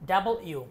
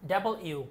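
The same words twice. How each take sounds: Both takes have the same delivery.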